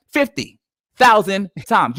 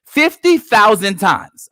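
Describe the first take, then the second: First: "Fifty thousand times" repeated slow and heavy. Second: "Fifty thousand times" slowly, every word leaned on; slow emphatic. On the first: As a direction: ripeti "Fifty thousand times" lento e pesante. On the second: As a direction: lascia cadere "Fifty thousand times" lento, parola per parola. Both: Real, not acted.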